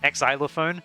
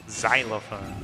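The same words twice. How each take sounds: First: The X is said as a separate extra syllable. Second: The X is not said as its own syllable. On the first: The speaker calls it wrong. "I pronounce the X as like its own word, its own syllable" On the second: The speaker calls it right. "That's the word"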